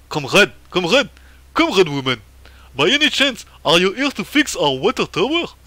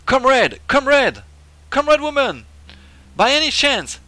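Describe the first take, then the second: First: Loud, hammed-up Russian accent; emphatic mock-Russian character voice. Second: High, loud put-on voice; loud, high-pitched character hail; game character calling out. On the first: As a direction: hail them like a caricature Russian comrade. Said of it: "c'est plutôt un accent russe". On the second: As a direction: hail them in a raised, punched voice. First voicing of game character.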